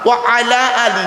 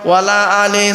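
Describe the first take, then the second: First: Wa and ala are said as separate words. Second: Wa and ala are merged into one word. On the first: It keeps the preposition and its meaning. The speaker calls it right. "ওয়ালা আলে নয়" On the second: It turns the phrase into a negation. The speaker calls it wrong. "বাবা ভুল হয়ে গেল।"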